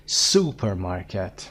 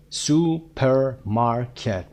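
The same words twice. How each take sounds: First: "Supermarket" as one word, SU-permarket; stress on first syllable. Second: "Supermarket" broken into su, per, mar, ket; very slow, separated beats in "Supermarket"; syllable by syllable. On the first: Teacher showing word stress, first syllable of "Supermarket" stressed. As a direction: lean slowly on the start of "Supermarket", then drop. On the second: Teacher counting syllables, "Supermarket" split into four beats. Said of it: "ببینید چند هجایی هست". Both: Shown as a demonstration.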